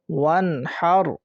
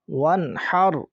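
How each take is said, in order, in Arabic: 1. الحرف الأخير يحمل حركة قصيرة. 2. الحرف الأخير ينتهي بدون حركة.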